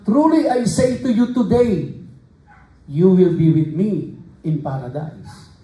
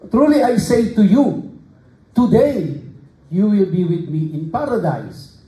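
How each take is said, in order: First: The pause comes after the word today. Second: The pause comes before the word today.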